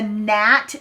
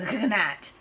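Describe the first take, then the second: First: It begins with an N sound. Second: It begins with a G sound. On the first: This is how it is said today. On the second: This is how it was said long ago.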